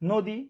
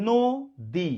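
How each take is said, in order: First: Said in the usual way. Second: নদী slowly split as "no - di"; syllable by syllable. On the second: Shown as a demonstration. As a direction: break নদী into two held syllables with a gap. (নদী দুই ভাগে, ধীরে ধীরে) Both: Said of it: "ধীরে ধীরে উচ্চারণ করেন".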